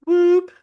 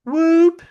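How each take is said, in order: First: High loud whoop again; high hooting whoop; imitated whoop call. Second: High loud whoop imitation; high hooting whoop; imitated whoop call. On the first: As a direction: sound out the whoop sharply. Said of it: "it was pronounced". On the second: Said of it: "it was just like this".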